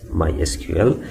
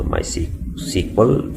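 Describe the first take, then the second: First: "My S Q L" with S, Q and L as separate letters; SQL spelled out. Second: "MySQL" with SQL spoken as the word sequel. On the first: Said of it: "formerly called as". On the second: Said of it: "formerly called as My S Q L". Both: Shown as a demonstration.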